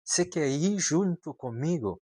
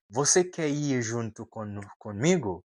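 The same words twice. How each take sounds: First: "Você" clipped to se, higher; reduced você. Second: Said in the usual way. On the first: Shown as a demonstration. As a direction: native casual você quer ir junto comigo. (você dito como "se", mais agudo) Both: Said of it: "Ele não vai falar você".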